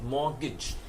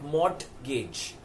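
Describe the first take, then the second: First: The T sound is left out in the middle. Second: The T sound is pronounced in the middle. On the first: The speaker calls it right. "the T is silent" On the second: The speaker calls it wrong. "which is why many people call it mortgage"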